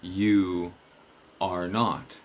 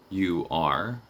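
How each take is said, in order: First: "you" hit louder, pause, then "are not"; syllables separated. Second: "You are" said smooth as two linked beats; two joined syllables. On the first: Teacher demos the negative, syllables pulled apart. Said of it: "for the negative". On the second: Teacher demos the positive form, smooth and joined. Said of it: "for the positive". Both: Shown as a demonstration.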